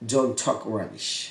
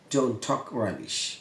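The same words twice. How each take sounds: The two takes are said the same way.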